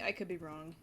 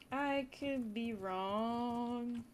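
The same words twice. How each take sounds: First: Said in the usual way. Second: Very slow, stretched "I could be wrong"; lazy sing-song hedge; drawn-out. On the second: Shown as a demonstration. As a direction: drag each word of "I could be wrong".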